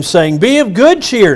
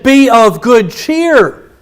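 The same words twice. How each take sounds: First: Said in the usual way. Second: Be of good cheer drawn out, each word weighted; slow emphatic. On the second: Shown as a demonstration. Preacher stressing Jesus' words to the church, slow and weighty. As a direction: lean hard into Be of good cheer, slowly. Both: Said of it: "He said".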